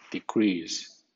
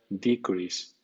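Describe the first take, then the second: First: The stress is on the second syllable. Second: The stress is on the first syllable. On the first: It is used as a verb. "cuando es verbo suena decrease" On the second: It is used as a noun. "es sustantivo, suena decrease"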